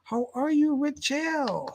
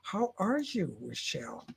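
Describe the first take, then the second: First: It is said happily, with clear excitement. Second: It is said flatly, without any excitement. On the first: The speaker calls it right. "Isn't that better?" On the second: The speaker calls it wrong. "I didn't have any excitement in my voice"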